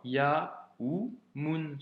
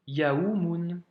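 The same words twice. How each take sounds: First: Yaoumoun slowly split, ya, ou, moun; detailed, piece by piece. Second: Said in the usual way. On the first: Shown as a demonstration. Teacher detailing the word for a pupil, yaoumoun syllable by syllable. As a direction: break yaoumoun into separate sounds with pauses. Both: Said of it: "si on détaillait vraiment".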